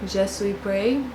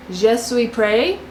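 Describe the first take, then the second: First: Quieter, slow "Je suis prêt" said zhuh swee preh; muted retry of "Je suis prêt", ending on a rise; softer second try. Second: Slow, tentative "Je suis prêt" said zhuh swee preh; hesitant French try at "Je suis prêt", final t silent; unsure French. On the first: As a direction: repeat "Je suis prêt" under your breath, doubting it. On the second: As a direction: sound out "Je suis prêt" carefully, ending on a rise. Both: Shown as a demonstration. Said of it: "I'm gonna butcher this 'cause I don't do French".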